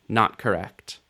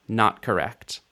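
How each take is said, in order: The two takes are said the same way.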